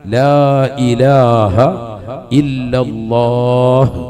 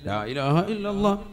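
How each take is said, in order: First: The ending is drawn out with a clear final h. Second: The ending is rushed and clipped short. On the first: The speaker calls it right. "അവസാനം നീട്ടി ഹാന്റെ ഉച്ചാരണം കൊടുത്ത് തന്നെ നിർത്തണം" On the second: The speaker calls it wrong. "ഇതെങ്ങനെയല്ലെന്ന്"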